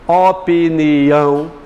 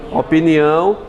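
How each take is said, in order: First: Opinião drawn out slowly, syllable by syllable. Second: Said in the usual way. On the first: Shown as a demonstration. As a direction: stretch out every syllable of Opinião. Teacher sounds out the word's syllables. (Opinião bem devagar, sílaba por sílaba)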